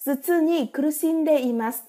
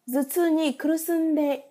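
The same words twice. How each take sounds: First: "kurushinde" said carefully with a clear shi; careful corrected "kurushinde imasu"; corrected reading. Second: "kurusunde" said by mistake instead of kurushinde, slowly; slow misread "kurusunde" before correcting; slip of the tongue. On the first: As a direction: fix the word "kurushinde" properly. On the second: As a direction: stumble on "kurusunde" with a wrong su sound. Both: Real, not acted. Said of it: "xin lỗi".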